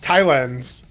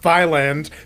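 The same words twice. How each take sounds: First: It begins with a plain T sound. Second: It begins with a TH sound like thigh. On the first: It names the country. The speaker calls it right. "It's Thailand" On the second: It names a strip club. The speaker calls it wrong. "Not Thailand. Thailand is the strip club I go to"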